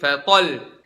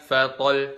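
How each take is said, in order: First: The voice is lifted on the doubled final sound. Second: The doubled final sound gets no extra lift. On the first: The speaker calls it right. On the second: The speaker calls it wrong.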